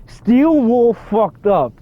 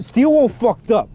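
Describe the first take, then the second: First: High, drawn-out, word by word; slow emphatic repeat. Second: Higher-pitched, incredulous verdict; exclaiming. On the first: Player repeating the verdict on the developers, slow and emphatic. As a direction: stretch every word for emphasis, pitched up. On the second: Player reacting to the changed note, exclaiming. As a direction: blurt it out, pitched up. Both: Real, not acted.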